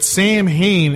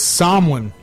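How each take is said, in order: First: The word gets an anglicized American pronunciation. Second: The word gets its Irish Gaelic pronunciation. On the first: "as us filthy Americans pronounce it" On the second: "it's Samhain in Irish, in Gaelic"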